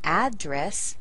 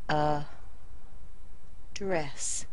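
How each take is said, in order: First: The stress is on the first syllable. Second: The stress is on the second syllable. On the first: It is the noun, a location. "So we say an address as a noun" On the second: It is the verb, to speak to or label. "We're going to put it on the second syllable"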